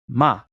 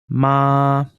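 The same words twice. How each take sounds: First: The syllable is said with the fourth tone. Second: The syllable is said with the first tone.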